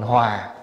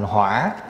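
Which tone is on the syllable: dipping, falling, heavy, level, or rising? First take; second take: falling; dipping. First: The syllable has a low falling tone. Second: The syllable has a dipping tone. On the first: It means harmony. "Bỏ dấu huyền vô thành hòa" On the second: It means fire. "lại đi để dấu hỏi vô, thành hỏa là lửa"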